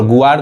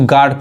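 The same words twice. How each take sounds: First: गुआर्ड with the u sounded, "gu-aard"; wrong pronunciation. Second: गार्ड said "gaard", no w glide; silent U. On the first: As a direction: slip an oo between g and aa in गुआर्ड. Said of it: "गलत हो जाएगा". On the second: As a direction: go from g straight to long aa in गार्ड. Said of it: "इसको गार्ड पढ़ेंगे". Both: Shown as a demonstration.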